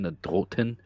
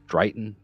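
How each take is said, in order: First: The word is said in the Saxon way. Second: The word is said in a non-Saxon way.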